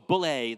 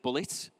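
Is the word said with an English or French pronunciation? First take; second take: French; English. First: The word is pronounced the French way. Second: The word is pronounced the English way. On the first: "so Bullet, they probably say there" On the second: "instead of Bullet"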